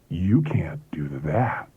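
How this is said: It is said in a seductive voice.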